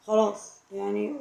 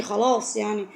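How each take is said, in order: First: Slow, softer, let it go with a sigh; resigned sigh. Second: Said in the usual way. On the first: Real, not acted. To viewers whose families feud, resigned and slow. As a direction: give up on it gently, slowly.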